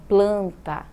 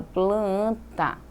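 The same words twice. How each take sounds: First: Said in the usual way. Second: "planta" stretched sound by sound; drawn-out sounds. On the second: Shown as a demonstration. Teacher showing how not to say it, "planta" drawn out. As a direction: draw out "planta" in two slow parts. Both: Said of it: "Eu falo no som sonoro".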